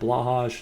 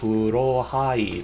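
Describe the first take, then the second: First: It is said with the usual English sounds. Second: It is said with Japanese katakana sounds. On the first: "that works too" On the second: "it was in katakana ... that's how you pronounce it"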